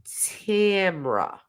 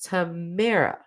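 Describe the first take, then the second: First: Two-syllable Tamra; right way. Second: Three-syllable Tamara; wrong way. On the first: Streamer giving the viewer's name the right way. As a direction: say Tamra, TAM-ruh, short and clipped together. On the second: Streamer recalling how she thought the name went. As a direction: say Tamara, tuh-MARE-uh, as she thought it was. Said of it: "I thought it was like". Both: Shown as a demonstration.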